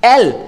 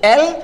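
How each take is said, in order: First: It begins directly with the vowel sound. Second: It begins directly with the vowel sound.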